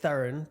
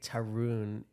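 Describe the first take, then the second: First: The name has an Indian pronunciation. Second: The name has an Americanized pronunciation. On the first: This is the name's real pronunciation. "It's Tarun" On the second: This is the version used growing up in America. "I say Tarun because I grew up in New Hampshire"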